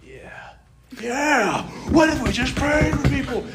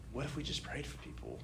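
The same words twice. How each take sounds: First: High, loud excited shout; worked-up excitement. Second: Quiet, tentative retold idea; soft suggestion. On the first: Retold or imitated. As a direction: burst out as the idea grips you. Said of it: "I was just getting so worked up". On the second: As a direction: float it softly, almost to yourself.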